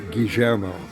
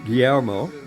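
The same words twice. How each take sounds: First: The double L has the Argentine Spanish sound. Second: The double L has the general Spanish sound. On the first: "in Argentine Spanish, ... they would say Guillermo" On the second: "in Spanish it's Guillermo"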